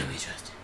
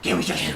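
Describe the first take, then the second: First: Whispered Batman line. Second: Very low, gruff Batman voice. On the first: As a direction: breathe it as a whisper. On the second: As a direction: growl it like Batman. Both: Pretend.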